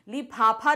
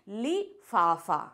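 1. इसे महाप्राण p की ध्वनि से बोला जाता है। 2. इसे f की ध्वनि से बोला जाता है। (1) "लिफाफा नहीं होता" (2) "क्या होता है, लिफाफा"

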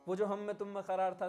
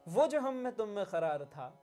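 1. यह सादे ढंग से पढ़ी जाती है, संवाद वाला जोर दिए बिना। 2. यह भावपूर्ण ढंग से बोली जाती है, शब्दों पर जोर देकर। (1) "ये ऐसे भी पढ़ सकते हैं" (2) "स्ट्रेस किधर जाएंगे ... वो याद दिला रहे हैं सामने वाले को"

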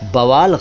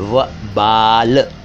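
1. शब्द b से शुरू होता है, फिर v। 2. शब्द v से शुरू होता है, फिर b। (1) "बवाल गलत है।" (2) "सही शब्द है वबाल"

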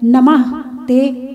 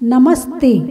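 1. इसे विसर्ग के साथ दो अलग शब्दों में कहा जाता है। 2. इसे एक शब्द में कहा जाता है, s ध्वनि जुड़ी हुई। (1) "नमः ते शब्द का" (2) "तो ये बन गया नमस्ते"

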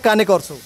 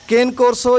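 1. पहला शब्द दो अक्षरों में बोला जाता है, 'ka-neh'। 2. पहला शब्द एक अक्षर में बोला जाता है, 'kane'।

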